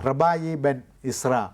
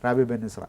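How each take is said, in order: First: The first word ends in an 'eye' sound. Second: The first word ends in an 'ee' sound. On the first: "റബായി എന്നാണ് എൻ്റെ ഉച്ചാരണം" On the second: "ഇംഗ്ലീഷിലാകുമ്പോൾ എന്താണ്"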